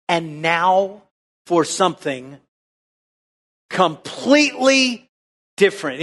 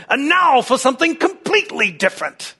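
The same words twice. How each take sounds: First: Dramatic quote. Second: Put-on high British announcer accent, in one run; hammed-up British accent, pitched high; John Cleese. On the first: Retold or imitated. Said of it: "To quote". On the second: Preacher mimics comedy skit hand-over, mock British accent. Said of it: "he'd say it in British accent".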